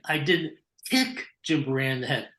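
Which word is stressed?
kick. The word "kick" carries the main stress. He was hit another way, not kicked. "that means you punched him in the head"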